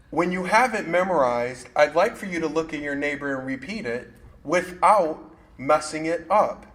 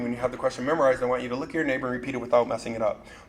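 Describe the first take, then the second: First: The instruction is said slowly. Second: The instruction is said fast.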